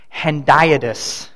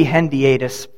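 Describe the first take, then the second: First: "Hendiatus" slowly, as hen-DIE-uh-dus; hendiadys with DIE. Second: "hendiatus" as hen-dee-AY-dus; hendiadys with AY. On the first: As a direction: stress a long "eye" sound in the middle of "Hendiatus". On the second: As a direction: split the middle of "hendiatus" into dee-AY. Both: Shown as a demonstration. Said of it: "Or it may be".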